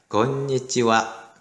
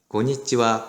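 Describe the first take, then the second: First: It is said in five even beats. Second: It is squeezed into four beats. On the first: The speaker calls it right. "다섯 박자가 똑같은 시간의 길이를 가져야 되니까" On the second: The speaker calls it wrong. "이렇게 네 박자로 발음하는 사람이 있어요"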